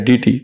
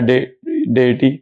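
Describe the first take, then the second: First: The first syllable sounds like dee. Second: The first syllable sounds like day. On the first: The speaker calls it wrong. "डीटी नाम का कोई pronunciation English भाषा में है ही नहीं" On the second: The speaker calls it right. "उसको कहा जाता है डेयटी"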